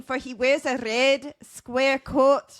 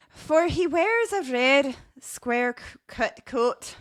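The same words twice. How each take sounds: First: Slow, higher Irish lilt; improved Irish accent. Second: Slow, higher voice slipping into Scottish; botched Irish accent. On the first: Host rereading the leprechaun's dress, improved Irish accent. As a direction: draw it out in a lilting Irish accent. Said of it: "try to read this quote again". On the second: Host reading a leprechaun's dress, Irish accent turned Scottish. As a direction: attempt Irish and land in Scottish, slowly. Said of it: "Nope, that's, that's Scottish". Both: Acted.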